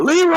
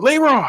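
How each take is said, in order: First: High, stretched-out name call; retold movie-style holler; mock yell. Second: High-pitched imitated holler; stretched, high retold shout; mock yell. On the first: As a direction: imitate a yell, pitched way up. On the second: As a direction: call out the name like the movie yell. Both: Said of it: "he just yelled".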